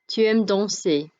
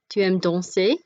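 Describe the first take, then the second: First: The voice falls at the end like a statement. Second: The voice rises at the end like a question. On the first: It states a fact. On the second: It asks a question.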